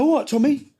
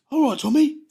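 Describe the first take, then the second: First: High, sing-song mock-friendly greeting, repeated; cocky greeting. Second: High, sing-song mock-friendly greeting; cocky greeting. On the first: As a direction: say it again, teasingly friendly. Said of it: "And does his window". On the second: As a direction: greet him with a knowing smirk. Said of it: "he goes".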